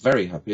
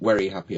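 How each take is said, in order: First: The word 'very' begins with a V sound. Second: The word 'very' begins with a W sound. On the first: The speaker calls it right. "I said, it's, it's very happy, isn't it?" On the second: The speaker calls it wrong. "he kept saying, we are very, very happy about this"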